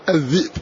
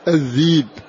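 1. في الكلمة همزة في الوسط. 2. تُبدل الهمزة ياءً مدّية. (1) "فهنا همز ساكن قبله كسرة" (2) "فيبدلها ياء الذيب"

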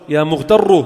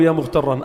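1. الكلمة تنتهي بالحركة 'u'. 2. الكلمة تنتهي بالحركة 'an'. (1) "لو كنت أقصد واحد بذاته شو كنت؟" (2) "شفتوا بس الفرق بين فتحة والضمة"

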